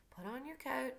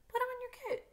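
First: A touch of dreaminess, slightly raised pitch; lightly voiced absent-minded father; Atticus, dreamy. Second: High, airy, dreamy put-on voice; badly faked dreamy father, pitched way up; Atticus, dreamy. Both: A narrator's reading. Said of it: "said Atticus dreamily".

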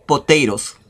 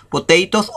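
First: "potatoes" with the last t tapped like a Spanish r; flapped T pronunciation. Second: "potatoes" with a crisp t in the last syllable; clear T pronunciation. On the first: Teacher showing learners the other way to pronounce it, "potatoes" with tapped t. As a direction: say "potatoes" as po-TAY-ros. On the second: Teacher showing learners one way to pronounce it, "potatoes" with clear t. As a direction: say "potatoes" as po-TAY-tos, t fully sounded. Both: Shown as a demonstration. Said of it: "se puede pronun-, pronunciar".

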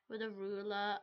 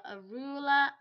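First: Said in the usual way. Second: "ruler" said louder and higher; stress on ruler. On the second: Pretend. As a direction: punch out "ruler" loudly. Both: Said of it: "repeated ruler lines".

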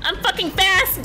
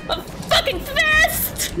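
First: Said in the usual way. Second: High-pitched, drawn-out cry; slow, high triumphant wail; squealed boast. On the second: Real, not acted. Boast repeated while fleeing.

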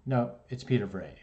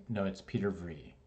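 First: Vrij said as "vray"; teacher's version. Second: Vrij said as "vree"; own name correction. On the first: Teacher insisting on the name, says "Vrij" as "vray". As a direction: say "Vrij" rhyming with day. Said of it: "He's like". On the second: Student correcting his teacher, says "Vrij" as "vree". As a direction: say "Vrij" rhyming with free. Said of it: "I'm like, put my hand up". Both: Retold or imitated.

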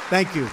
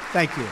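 No difference in how they are said.

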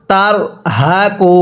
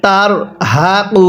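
No difference in how they are said.

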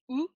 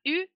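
First: OU said as ou in ours; Japanese u. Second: U said as the French u, lips rounded and tongue forward; wrong French u. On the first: Teacher showing students the right way to read U, ou. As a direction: round it back into OU, like ou. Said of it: "c'est pas U, c'est OU". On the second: Teacher showing students the wrong way to read U, French u. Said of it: "il faut faire très attention, c'est pas U". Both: Shown as a demonstration.

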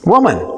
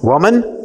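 First: "Woman." said with falling tune; "Woman." falling, declarative; stated woman. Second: "Woman?" with rising tune; "Woman?" rising as a question. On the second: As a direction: ask "Woman?" lifted at the end. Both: Shown as a demonstration. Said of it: "What does he say to her?".

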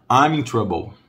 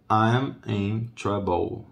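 First: Said in the usual way. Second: I'm in trouble drawn out at half speed; slow model phrase. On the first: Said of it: "repeats for students". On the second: Shown as a demonstration. Teacher repeating the phrase slowly so students copy it. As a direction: stretch out I'm in trouble for learners. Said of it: "repeats slowly for students".

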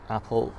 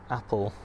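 No difference in how they are said.

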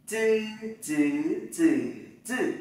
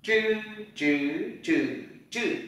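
First: "Chư" as a dz-like ts without air puff, four tones; flat-tongue unaspirated z. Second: "Chư" retroflex without air puff, through four tones; curled-tongue zh. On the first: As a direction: keep tongue straight on "chư", no burst. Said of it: "Z mà đi với Y". (đọc "chư" thẳng lưỡi, không bật hơi) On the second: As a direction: curl the tongue back on each "chư". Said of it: "thì cuộn lưỡi lại". (đọc "chư" cuộn lưỡi, không bật hơi) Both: Shown as a demonstration.

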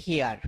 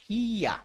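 First: হিয়ার with a clear final র, pitch dropped low; common wrong hiyar. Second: হিয়া with no final r, ending on an open আ; correct hiya. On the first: Teacher shows students the usual wrong "hear", with the র sounded. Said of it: "কিন্তু আমরা এটাকে কি বলি". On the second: Teacher models the right English "hear" for students, no r at the end. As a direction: say হিয়া, drop the r, falling at the end. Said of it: "শেষে আর উচ্চারিত হবে না". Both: Shown as a demonstration.

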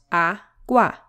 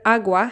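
First: "agua" split into two beats, a, gua; syllable by syllable. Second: Said in the usual way. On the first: Shown as a demonstration. Teacher showing learners the two syllables, syllable by syllable. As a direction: sound out "agua" in separate syllables.

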